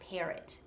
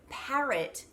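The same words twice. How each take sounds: First: It is said in an American accent. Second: It is said in an Australian accent.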